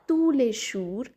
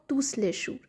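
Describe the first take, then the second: First: The final S of tous is silent. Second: The final S of tous is pronounced. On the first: The speaker calls it right. "we'll read it as" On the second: The speaker calls it wrong. "and not"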